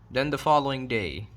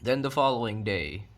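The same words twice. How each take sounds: The two takes are said the same way.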